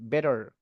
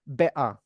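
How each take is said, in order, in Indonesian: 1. Huruf t di tengah terdengar seperti d yang lembut. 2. Huruf t di tengah adalah glottal stop. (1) "lafalkan pakai D ya. Nah, ini bakal kedengaran American" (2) "Mau lebih British lagi, diglotalkan boleh"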